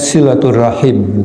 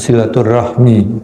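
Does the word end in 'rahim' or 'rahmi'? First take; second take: rahim; rahmi. First: The word ends with the sounds 'rahim'. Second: The word ends with the sounds 'rahmi'. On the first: The speaker calls it right. "ucapnya silaturrahim" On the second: The speaker calls it wrong. "bukan silaturrahmi"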